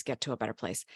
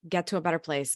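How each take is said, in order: First: Fading self-talk. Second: Urging self-talk. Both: Retold or imitated. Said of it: "because you're like".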